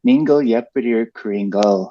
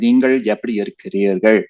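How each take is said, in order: First: The l is made with the tongue kept forward. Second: The l is made with the tongue curled back. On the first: "those days, I would be like" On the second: "if you say it like in a formal with grammar"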